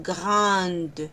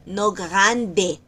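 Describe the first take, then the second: First: Grande said slowly with a silent final E, like grand; slow French grande. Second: Grande said in Spanish, final E sounded; Spanish-style grande; wrong grande. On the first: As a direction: grande ending on the D. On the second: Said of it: "sino grande". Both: Shown as a demonstration.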